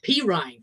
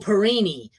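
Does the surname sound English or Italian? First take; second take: English; Italian. First: The surname is said with an English-sounding ending. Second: The surname is said with an Italian-sounding ending. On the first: This is how the current player's name is said. "When it's Samaje, it's P. Ryan" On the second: This is how an earlier player's name was said. "when it was LaMichael, it was LaMichael Perini"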